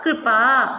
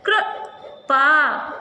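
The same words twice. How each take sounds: First: Said in the usual way. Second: कृपा drawn out very slowly as क्र-पा; teacher stretching कृपा; slow sounding out. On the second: Shown as a demonstration. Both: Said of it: "इसका जो उच्चारण होता है".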